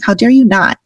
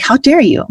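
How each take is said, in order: First: "How dare you not?" with "you" leaned on and a firm falling end; challenging how dare you not. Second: Higher, sharp indignant "How dare you?" with the weight on "dare". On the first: Her friend Luli daring her to show up, firm challenge. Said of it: "I hear our friend Luli be saying". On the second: Catching herself in her own head, mock indignant. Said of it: "I hear myself saying". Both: Retold or imitated.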